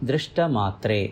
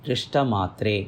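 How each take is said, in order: The two takes are said the same way.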